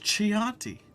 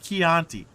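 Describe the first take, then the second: First: It is said in a fancy, showy way. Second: It is said the plain, everyday way. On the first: This is how a sophisticated person says it. "if you're a true sophisticated person" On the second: This is how most people say it. "the most common way of saying it"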